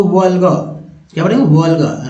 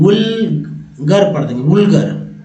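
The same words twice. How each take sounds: First: वल्गर with the final r dropped, "vul-ga"; silent final r. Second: वुल्गर with an "oo" vowel and a sounded final r; wrong pronunciation. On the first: Teacher correcting learners' reading, r-less pronunciation. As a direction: say वल्गर with an open first vowel and no r at the end. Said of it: "र उड़ा देना है". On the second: Teacher showing viewers how people misread it, mispronounced. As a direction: misread it slowly as वुल्गर, "wool-gar". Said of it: "तो गलत हो जाएगा उच्चारण". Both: Shown as a demonstration.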